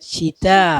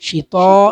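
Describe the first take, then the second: First: The t sound is light and thin. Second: The t sound is heavy and emphatic. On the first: The speaker calls it right. "ഇത് നേർപ്പിച്ചാണ് ഉച്ചരിക്കേണ്ടത്" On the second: The speaker calls it wrong. "ഷിതാ എന്ന് പറയരുത്"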